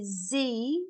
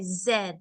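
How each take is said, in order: First: The letter name is said in an American way. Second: The letter name is said in an Australian way. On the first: This is how Americans name the letter. "in America, they say Z" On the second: This is how Australians name the letter. "in Australian English, we say Z"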